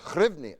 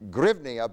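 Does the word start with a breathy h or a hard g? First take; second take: breathy h; hard g. First: The word starts with a breathy h sound. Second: The word starts with a hard g sound. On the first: The speaker calls it right. "you say ch" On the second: The speaker calls it wrong. "but you don't say g"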